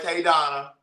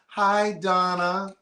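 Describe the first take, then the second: First: It is said in a plain regular voice. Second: It is said in a put-on schmoozing voice.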